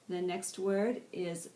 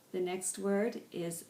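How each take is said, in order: Both takes have the same delivery.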